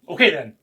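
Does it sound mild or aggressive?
aggressive. It is said in a more aggressive tone.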